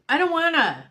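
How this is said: The phrase is said with expressive, emotional inflection. "like with inflection"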